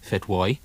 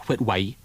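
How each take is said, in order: First: It is said in an Aberdeenshire Doric accent. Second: It is said in an Ayrshire Scots accent. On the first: "is their fitwoi" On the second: "Ma whitwai"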